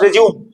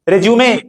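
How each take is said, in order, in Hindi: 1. शब्द का अंत 'm' व्यंजन से होता है। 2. शब्द का अंत 'ay' स्वर से होता है। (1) "रेज्यूम मतलब फिर से शुरू करना" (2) "रेज्यूमे नॉट रेज्यूम"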